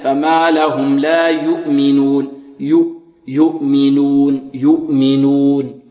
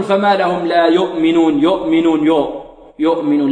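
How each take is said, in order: First: Slow chanted يؤمنون with a tight, pure "yu"; ضم الشفتين. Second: Wrong "yo" for "yu" in يؤمنون; ضم ناقص. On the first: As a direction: round the lips fully on يؤمنون, drawing it out. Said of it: "إلا بضم الشفتين ضما". (ترتيل بطيء ليؤمنون بضمة تامة) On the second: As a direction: demonstrate the error: slack lips, yo'minun for يؤمنون. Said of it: "لا نقول". (نطق يؤمنون بضمة مائلة إلى o) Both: Shown as a demonstration.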